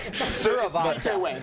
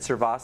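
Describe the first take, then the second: First: The name is said with every syllable included. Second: The name is said with one syllable dropped. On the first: The speaker calls it right. "I got that other uh, syllable in there" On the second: The speaker calls it wrong. "I said Survasa, ... I said it wrong"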